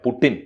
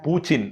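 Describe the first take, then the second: First: The middle consonant is a hard 't' sound. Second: The middle consonant is a 'ch' sound. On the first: The speaker calls it wrong. "ടകാരം Russian ഭാഷയിലില്ല, പുട്ടിൻ ഇല്ല" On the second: The speaker calls it right. "ച ചകാരമേ ഉള്ളൂ"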